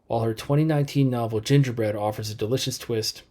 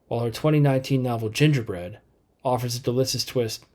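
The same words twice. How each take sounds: First: There is no pause after 'Gingerbread'. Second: There is a pause after 'Gingerbread'. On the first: The speaker calls it right. "Let me say it without pausing" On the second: The speaker calls it wrong. "I'm going to say it both ways"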